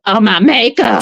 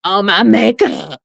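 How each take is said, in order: First: Lightly stuffy echo, normal pace; a touch of a blocked nose; repeating the congested mimic. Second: Slow, stuffy mock echo of the clip; a hint of a congested nose, slowed down; mimicking congested voice. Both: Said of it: "sounded like Shamar".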